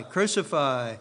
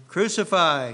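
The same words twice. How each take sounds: First: Said in the usual way. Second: "Crucify" called out loud with a falling end; crowd cry. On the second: A narrator's reading. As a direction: read the mob's cry, punching "Crucify". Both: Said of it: "they cried out".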